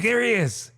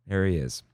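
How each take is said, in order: First: High-pitched excited outburst; excited spotting. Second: Said in the usual way. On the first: Retold or imitated. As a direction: re-enact spotting him, voice jumping way up. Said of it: "I'm like".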